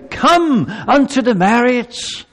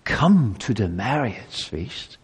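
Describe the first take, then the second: First: King's invitation. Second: Soft, slow, much lower plea; "Come to the marriage feast" pleaded softly and slowly; pleading. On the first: King's call to the feast. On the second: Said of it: "to plead with you". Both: Acted.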